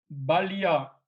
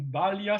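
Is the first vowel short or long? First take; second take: short; long. First: The first vowel is short. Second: The first vowel is long. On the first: It means strength. "avec le premier A, ba, avec un A bref" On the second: It means childhood. "voyelle longue"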